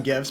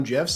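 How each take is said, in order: First: "gifs" with a hard G, as in gift. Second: "gifs" with a soft G, like "jifs". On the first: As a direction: say "gifs" starting with a hard g sound. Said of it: "I call them gifs". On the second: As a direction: say "gifs" starting with a j sound. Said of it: "sometimes I do call them gifs". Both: Shown as a demonstration.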